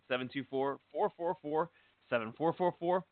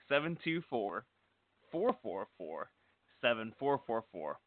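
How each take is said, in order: First: It is said at a quicker pace. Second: It is said at a slower pace.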